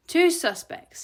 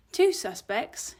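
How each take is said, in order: First: High, loud, impatient insistence; emphatic correction. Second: Slow, tentative question from a cowed assistant; timid query. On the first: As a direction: repeat it firmly as if to a dim assistant. Boss firmly repeats to assistant. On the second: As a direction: query it gingerly. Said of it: "flinching and avoiding eye contact". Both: A narrator's reading.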